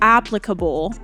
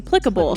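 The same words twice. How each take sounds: First: It is said with an American pronunciation. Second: It is said with a British pronunciation. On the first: "the American way is applicable" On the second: "British way is applicable"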